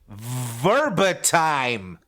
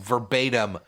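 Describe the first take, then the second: First: The last syllable has a long i sound. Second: The last syllable has a short i sound. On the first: The speaker calls it wrong. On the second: The speaker calls it right.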